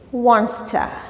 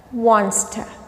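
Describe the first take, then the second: Both takes have the same delivery.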